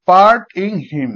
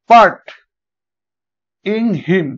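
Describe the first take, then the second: First: "part ইন হিম" said slowly, weight landing on হিম; stress on হিম. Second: "part" punched loud, then "ইন হিম" said lightly; stress on part. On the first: Teacher to students, slow stressed demo with হিম accented. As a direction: lean on হিম and let part and ইন pass lightly. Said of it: "দেখো হিমটা একটা stress level". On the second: Teacher to students, loud stress on part. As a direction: hit part hard and let ইন হিম fall away. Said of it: "আমরা হিমটা stress দিয়েছি এর আগে". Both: Shown as a demonstration.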